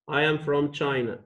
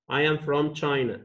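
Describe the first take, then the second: No difference in how they are said.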